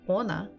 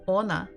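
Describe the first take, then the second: First: The stress is on the first syllable. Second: The same.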